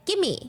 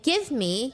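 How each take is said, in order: First: The two words blend into one short word. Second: Both words are said fully and separately. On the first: "you say, and the little son would say" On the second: "Instead of saying"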